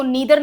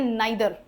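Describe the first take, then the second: First: नीदर with an "ee" in the first syllable; rejected pronunciation. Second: नाइदर with an "eye" in the first syllable; recommended pronunciation. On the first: Teacher shows students the form not to use, rejected pronunciation. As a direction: say नीदर as NEE-der. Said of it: "इसको नीदर नहीं बोलते". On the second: Teacher shows students the accepted form, recommended pronunciation. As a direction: say नाइदर as NIGH-der. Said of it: "इसको बोलते हैं नाइदर". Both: Shown as a demonstration.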